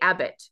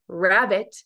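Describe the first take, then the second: First: The word begins with a vowel, no R. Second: The word begins with a clear R sound. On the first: The speaker calls it wrong. "but don't say abbot" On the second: The speaker calls it right. "Say rabbit"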